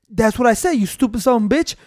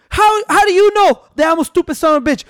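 First: Lightly voiced manager, even and deadpan; unruffled prankster manager. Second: High-pitched mock indignation; Stone Cold Steve Austin mad. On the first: Fake manager answering the mad wrestler, lightly played calm. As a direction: repeat the insult without rising to the anger. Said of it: "pretending to be the manager". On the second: Imitating the wrestler challenging the manager, high indignant voice. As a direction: act out an affronted wrestler, pitch raised. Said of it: "Stone Cold got so mad".

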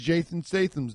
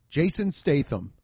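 First: "Jason Statham's" with s slipping into th; tongue-tied lisp. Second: "Jason Statham" with clean s sounds; careful correction. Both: Real, not acted.

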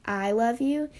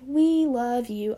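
First: I love you, I stressed. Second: We drawn out slowly; stress on We. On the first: Makes the worship lyric personal. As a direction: swap in I and lean on it. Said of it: "I'll sing, like". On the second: Sings the lyric slowly as written. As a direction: lean on We, slow. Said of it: "instead of saying". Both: Shown as a demonstration.

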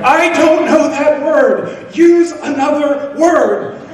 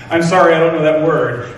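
First: High, slow, drawn-out shout, half laughing; mock exasperated shout. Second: Said in the usual way. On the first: At the grocery checkout, shouting back at the cashier in hammed-up exasperation. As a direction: yell it back much higher and slowly, hamming up the frustration. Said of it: "And she'd say it louder". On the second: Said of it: "I would say in, you know, my broken Portuguese".

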